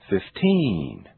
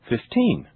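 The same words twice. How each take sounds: First: The stressed vowel is stretched out very long. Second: The stressed vowel has a normal length. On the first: "I will exaggerate them first" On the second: "Now I'll say them naturally"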